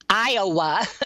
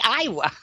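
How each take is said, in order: First: Iowa is said with an outsider's pronunciation. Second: Iowa is said with a local Iowan pronunciation. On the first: "I don't say Iowa right, because Iowa" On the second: "in Iowa, we say Iowa"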